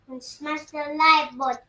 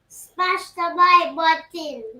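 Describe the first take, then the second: First: It is said with little energy. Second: It is said with more strength.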